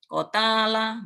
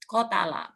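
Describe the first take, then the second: First: A vowel in the word is drawn out long. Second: Every vowel in the word is kept short. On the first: The speaker calls it wrong. "Nggak boleh" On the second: The speaker calls it right. "Pendek semua"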